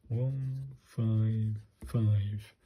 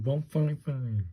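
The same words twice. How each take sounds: First: Drawn out, each number spaced apart; slow careful read-out. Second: Said in the usual way. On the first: Shown as a demonstration. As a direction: spell the number out slowly, one at a time.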